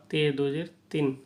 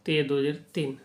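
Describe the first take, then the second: No difference in how they are said.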